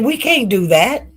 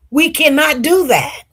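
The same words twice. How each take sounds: First: Said in the usual way. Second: "cannot" pushed higher, each word firm; emphatic refusal. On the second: Retold or imitated. Mother refusing her date's suggestion, stressing "cannot" firmly. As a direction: lean hard on "cannot".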